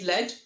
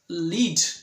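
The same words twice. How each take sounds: First: The vowel is short, rhyming with 'bed'. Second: The vowel is long, rhyming with 'need'. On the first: It names a metal. "L E D, lead. Lead means a metal" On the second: It means to make someone follow. "To lead means to make someone to follow"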